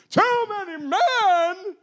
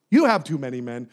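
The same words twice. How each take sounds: First: Drawn-out high incredulous echo; mock disbelief. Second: Said in the usual way. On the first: Gideon echoing God in slow mock disbelief. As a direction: repeat it in hammed-up shock.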